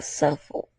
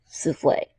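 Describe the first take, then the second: First: Souffle- said as SUFF-ul; souffle- misread with a short u like "suffle"; souffle- stumbled as SUFF-uhl; misread word. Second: Souffle. corrected to soo-FLAY, whispered; self-correction. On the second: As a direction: fix souffle. to soo-FLAY under the breath. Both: Real, not acted.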